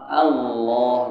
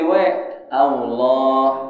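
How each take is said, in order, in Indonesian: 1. Kata ini diucapkan dengan bunyi L. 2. Kata ini diucapkan dengan bunyi W. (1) "Allah pakai lam" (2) "Jangan sampai jadi we Allah au pakai au Allah. Itu salah"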